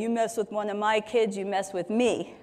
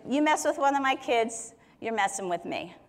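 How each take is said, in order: First: Put-on lightly done rough, tough South Philly accent; a hint of a South Philly tough guy guarding his kids. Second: Said in the usual way. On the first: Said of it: "someone with a South Philly accent and kind of getting all rough and tough". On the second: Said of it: "I don't know if he talks like that".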